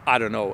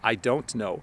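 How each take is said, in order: First: The words are squeezed together into 'dunno'. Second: 'Don't' and 'know' are said as clear words. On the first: "one of the most common reductions in English" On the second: "just use the contraction"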